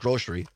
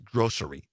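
First: The middle consonant is an 'sh' sound. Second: The middle consonant is an 's' sound. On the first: The speaker calls it wrong. "I put a SH in it. ... I've always said grocery" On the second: The speaker calls it right. "I know the correct way is grocery"

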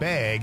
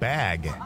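First: It is said with a Wisconsin accent. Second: It is said with a standard accent.

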